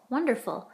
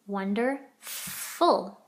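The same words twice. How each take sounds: First: Said in the usual way. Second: WONDERFUL very slow, broken as wonder, then long F into ful; sounded out. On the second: Shown as a demonstration. Teacher checking the spelling, wonderful sounded out slowly in parts. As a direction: stretch wonderful, holding the F sound.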